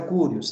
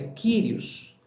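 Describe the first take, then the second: First: The first vowel sounds like 'oo'. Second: The first vowel sounds like 'ee'. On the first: The speaker calls it wrong. "a transliteração correta não é Curios" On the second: The speaker calls it right. "é Kyrios"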